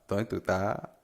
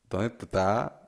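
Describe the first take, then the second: First: S sounds and syllables are swallowed, clipped. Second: S sounds and syllables are swallowed, clipped.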